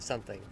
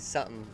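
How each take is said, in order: First: The T sound in the middle is pronounced. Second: The T sound in the middle is dropped. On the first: It is the usual standard way of talking. "instead of something" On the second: It imitates a local Utah way of talking. "I drop off of my T's and I say something"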